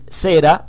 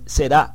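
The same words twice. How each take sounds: First: The stress is on the first syllable. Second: The stress is on the last syllable. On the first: "aparece en Strong con acento en la E" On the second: "como siempre la escucho decir"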